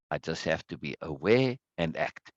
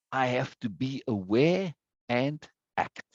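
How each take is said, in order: First: Said in the usual way. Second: Slow, with "aware", "and" and "act" each set apart; emphatic. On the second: Real, not acted. Teacher underlining a student's words for the group, slow and emphatic. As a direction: pause before "and" and again before a weighted "act". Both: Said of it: "I like to emphasize like that".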